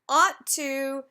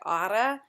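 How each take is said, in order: First: Both words are said fully with a clear 'to'. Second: The words blend together and 'to' becomes 'ta'.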